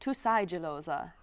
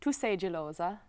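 First: The vowel in 'sei' is opened, German style. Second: The vowel in 'sei' is closed, Italian style. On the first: The speaker calls it wrong. "I kept saying, ... Why am I opening that?" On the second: The speaker calls it right. "instead of saying"

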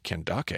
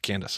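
First: The name is said following its alternative spelling. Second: The name is said as the English name Candace. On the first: "that's an interesting way to pronounce that" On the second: "I always just said Candace"

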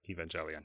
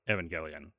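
First: The G is said soft, like a J. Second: The G is said hard, like in go. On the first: The speaker calls it wrong. "I often say Evangelion too" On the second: The speaker calls it right. "It's closer to the Japanese pronunciation"

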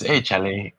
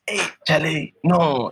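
First: It sounds like a casual friendly greeting. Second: It sounds shocked and disbelieving.

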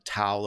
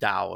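First: The word is said the usual English way. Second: The word is said the Chinese way.

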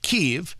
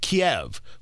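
First: The city name is pronounced the Ukrainian way. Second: The city name is pronounced the Russian way. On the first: This is how locals name their city. "That is the Ukrainian pronunciation" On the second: This is the older, familiar name. "which would be the Russian pronunciation"

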